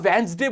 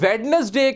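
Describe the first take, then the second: First: The first 'd' is silent. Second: The first 'd' is clearly pronounced. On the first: The speaker calls it right. "वेंसडे बोलने की आदत होनी चाहिए" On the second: The speaker calls it wrong. "वेडनेसडे की जगह"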